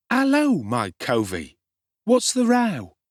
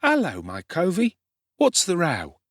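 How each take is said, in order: First: Much higher and louder, brash urchin hail; cocky street boy. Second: Put-on higher, brash young urchin greeting; cocky street boy. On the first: Street boy greeting hungry Oliver, loud and cocky. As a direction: sing it out with swagger. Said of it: "said this strange young gentleman to Oliver". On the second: Street boy hailing Oliver, cocky and brash. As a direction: swagger up to the stranger boy. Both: A narrator's reading.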